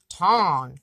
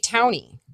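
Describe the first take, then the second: First: The vowel sounds like aw in honk. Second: The vowel sounds like ow in town. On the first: The speaker calls it right. "It's like a honk" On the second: The speaker calls it wrong. "I've also heard people say Towny. Like town with an I on the end of it"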